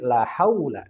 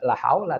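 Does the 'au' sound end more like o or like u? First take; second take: u; o. First: The diphthong ends clearly toward a u sound. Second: The diphthong is flattened toward an o sound. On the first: The speaker calls it right. "tapi la haula" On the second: The speaker calls it wrong. "tidak la haula"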